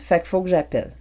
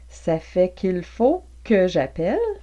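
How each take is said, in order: First: The phrase is squeezed into short clipped syllables. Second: Every syllable of the phrase is said fully.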